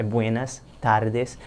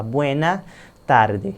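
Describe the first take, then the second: First: "buenas tardes" said slowly and carefully; corrected, slowly. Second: Said in the usual way. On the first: Shown as a demonstration. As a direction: spell out "buenas tardes" word by word. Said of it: "É". ("buenas tardes" bem devagar, com cuidado) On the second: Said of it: "Esse não tem pra onde correr".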